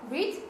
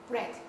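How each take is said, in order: First: Long ee vowel in read; present-tense read. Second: Short e vowel in read; past-tense read. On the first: Teacher lists irregular verbs for students, read as "reed". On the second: Teacher gives students the past form, read as "red". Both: Shown as a demonstration. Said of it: "읽는 방법이 틀렸습니다".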